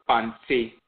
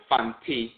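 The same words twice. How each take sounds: First: Fanti with the T softened towards Ch; variant pronunciation. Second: Said in the usual way. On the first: Shown as a demonstration. Lecturer showing how some Akan say it, Fanti with Ch-like T. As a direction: say Fanti nearly as "Fan-chee". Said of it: "sounds like a Ch sound". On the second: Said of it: "you hear some pronounce it".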